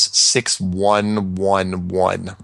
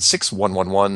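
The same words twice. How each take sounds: First: Each digit is said slowly and clearly apart. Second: The digits are said quickly and run together.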